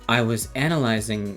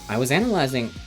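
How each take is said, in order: First: It is said in a distinct put-on character voice. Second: It is said in the speaker's ordinary voice. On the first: "this guy's more like, uh" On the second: "These guys both have my voice"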